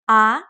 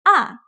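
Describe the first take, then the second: First: The pitch starts mid and rises. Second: The pitch starts high and falls quickly. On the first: "It starts in the middle, semi-high, and goes up" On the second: "It starts very high but quickly goes down"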